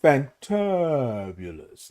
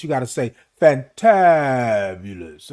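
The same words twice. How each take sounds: First: Fantabulous drawn out very slowly and softly, syllables stretched; slow soft showpiece fantabulous; fantabulous with a spin. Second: Fantabulous stretched out slowly, every syllable savoured; a sly drawn-out fantabulous with a little spin. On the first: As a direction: savour fantabulous, put a little spin on it. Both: Shown as a demonstration. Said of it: "you gotta say it like this".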